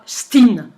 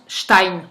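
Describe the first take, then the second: First: The vowel sounds like 'ee'. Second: The vowel sounds like 'eye'. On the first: The speaker calls it wrong. "ça se prononce pas Steen" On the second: The speaker calls it right. "Ça se prononce Stein"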